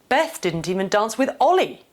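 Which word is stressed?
Ollie. The emphasis falls on the word Ollie. The focus is on who was not danced with. "The first two point towards the two actors in this scenario"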